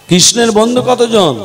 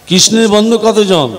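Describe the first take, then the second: No difference in how they are said.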